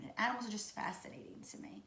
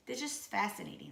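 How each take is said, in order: First: Soft whisper on "The animals are just fascinating to me"; hushed, awed whisper. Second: Said in the usual way. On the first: Real, not acted. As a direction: breathe it out in awe. Repeats phrase in a whisper.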